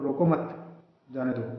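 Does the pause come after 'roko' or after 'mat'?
after mat. The pause comes right after the second word. Don't stop the person; let them leave. "मतलब उसको रोको ही मत, जाने ही दो"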